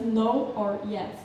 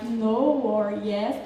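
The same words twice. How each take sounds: First: Said in the usual way. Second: "no" and "yes" drawn out slowly; Australian stretched vowels. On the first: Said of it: "instead of say just". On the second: Shown as a demonstration. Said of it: "Australian speakers treat the vowels".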